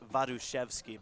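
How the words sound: The surname is said with a Polish pronunciation. This is the original form of the name. "In the Polish tr- pronunciation"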